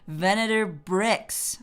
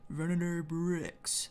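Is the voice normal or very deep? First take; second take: normal; very deep. First: It is said in a normal voice. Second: It is said in a very deep voice.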